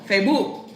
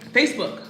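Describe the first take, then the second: First: It is said in a Spanish accent. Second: It is said dry, in an American accent.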